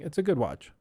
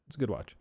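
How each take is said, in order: First: Said in the usual way. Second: Muttered under the breath, dropping low; quiet aside. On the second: Shown as a demonstration. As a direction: repeat it softly to yourself.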